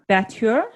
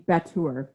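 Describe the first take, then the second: First: The word is said with a French-sounding pronunciation. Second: The word is said without a French-sounding pronunciation. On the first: The speaker calls it wrong. "I don't know why I said that French" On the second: The speaker calls it right. "at least somewhat possibly close pronunciation"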